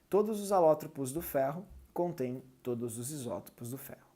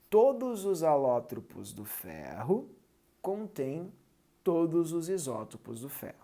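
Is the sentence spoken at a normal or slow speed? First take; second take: normal; slow. First: The sentence is spoken at normal speed. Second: The sentence is spoken very slowly.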